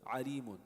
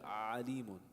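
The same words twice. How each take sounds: First: The first vowel is kept short. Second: The first vowel is dragged out long. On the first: The speaker calls it right. "But without that, it's just alimun" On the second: The speaker calls it wrong. "You don't want to hold it like drag. ... That's that would be incorrect"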